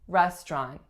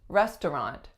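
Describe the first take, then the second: First: A syllable is dropped, leaving two. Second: All three syllables are pronounced. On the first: "way more common to hear restaurant" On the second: "looks like it should be restaurant"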